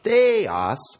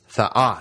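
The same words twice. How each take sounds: First: The stress is on the first syllable. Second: The stress is on the second syllable. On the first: The speaker calls it wrong. "It's not theos" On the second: The speaker calls it right. "The accent is on the second syllable, and the epsilon is short"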